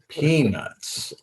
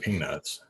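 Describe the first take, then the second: First: The word is said slowly with careful articulation. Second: The word is said quickly and casually. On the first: The speaker calls it right. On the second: The speaker calls it wrong.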